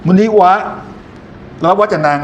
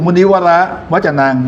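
First: "มุนิวะ" cut off high, then a pause before the rest; higher "มุนิวะ", halted mid-word before "วจนัง"; wrong phrase break. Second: "มุนิวร" as one group, then "วจนัง"; correct phrase break. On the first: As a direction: break the word after "มุนิวะ", splitting off its last syllable. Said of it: "ไม่ใช่เป็น". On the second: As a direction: read "มุนิวร" whole, pause, then "วจนัง". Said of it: "เวลาอ่าน". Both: Shown as a demonstration.

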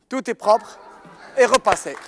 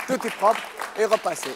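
First: Said in the usual way. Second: "propre" leaned on in a slow repeat. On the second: Shown as a demonstration. Magician to mothers, repeating the reveal slowly. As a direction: spell it out slowly, lean on "propre".

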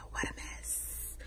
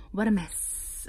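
First: Soft unvoiced whisper, slowly. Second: Said in the usual way. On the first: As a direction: breathe it out as a slow whisper. Whispered, then repeated aloud.

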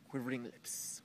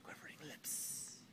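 First: Said in the usual way. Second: Soft, unvoiced-sounding whisper for effect; hushed dramatic repeat. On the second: Shown as a demonstration. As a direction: whisper it as a creepy echo.

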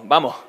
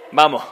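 First: "vamos" dicho como "vamo", sin la s final; tragándose la ese. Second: "vamos" dicho "vamo" con la s final perdida; ese tragada. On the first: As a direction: deja caer la ese de "vamos". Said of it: "o igual las eses". (ese final tragada) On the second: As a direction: repite "vamos" comiéndote la ese. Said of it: "y ya te tragas la ese". (ese final omitida) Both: Shown as a demonstration.

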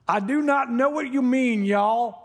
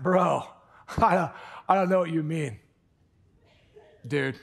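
First: Higher-pitched put-on Southern drawl; strong Southern accent. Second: Put-on SoCal bro talk; strong SoCal accent. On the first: Preacher imitating Peter denying it, strong Southern accent. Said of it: "coming back with a strong Southern accent". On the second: Preacher imitating Peter denying it, SoCal accent. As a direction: do a laid-back SoCal accent. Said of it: "busted out a SoCal accent".

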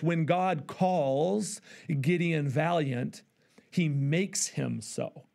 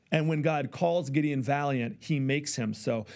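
First: Deliberate, drawn-out quote of "When God calls Gideon valiant"; slow quote. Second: Said in the usual way. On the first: Shown as a demonstration. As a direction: read slowly, letting every word land. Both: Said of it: "He says this".

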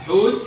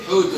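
First: حوت stopped on t; sukun ending. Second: حوت said as "hootun"; damma tanween. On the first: Teacher confirms the answer, حوت with bare t. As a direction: say حوت with no final vowel. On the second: Teacher confirms the answer, حوت ending in -un. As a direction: add -un to حوت. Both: Shown as a demonstration. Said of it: "اتنطق التاء مرتين".

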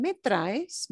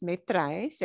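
First: "Me traes" with the pitch going up on "traes"; rising question. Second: "me traes" rising on "traes", said softer; rising question softer. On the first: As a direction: make "Me traes" climb at the end. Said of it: "ask it as a question". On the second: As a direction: repeat "me traes" gently with an upward lift. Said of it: "your inflection should go up". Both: Shown as a demonstration.

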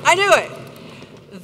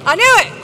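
First: Slow, drawn-out repeat. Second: Loud outburst. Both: Real, not acted.

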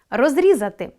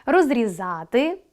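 First: Розрізати with stress on рі, falling; розрізати, hit рі, perfective form. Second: Розрізати with stress on за, slow rising; розрізати, lean on за, imperfective form. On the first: Teacher showing pupils the perfective, stress on рі. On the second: Teacher showing pupils the imperfective, stress on за. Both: Shown as a demonstration. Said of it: "Наголос допомагає розрізняти види".

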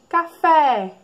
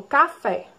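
First: "Café" with a loud, held FÉ; "Café" pitched up, final syllable stretched; stressed last syllable. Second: Said in the usual way. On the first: Shown as a demonstration. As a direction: lean hard on the FÉ in "Café". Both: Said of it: "Qual é a sílaba mais forte".

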